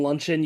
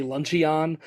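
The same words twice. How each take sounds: First: Said in the usual way. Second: "lunchy on" split as LUN-chee-ON; "lunchy on", with a full "ee" and a separate "on"; mispronounced luncheon. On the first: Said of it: "instead of saying luncheon". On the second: Shown as a demonstration. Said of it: "you say lunchy on".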